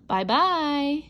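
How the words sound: It is said in a big, gruff voice.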